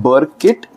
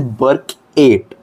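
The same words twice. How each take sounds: First: Said in the usual way. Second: "Burkett" said as two parts, "burk-eight"; mnemonic pronunciation. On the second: Shown as a demonstration. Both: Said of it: "can also be pronounced as Burkett".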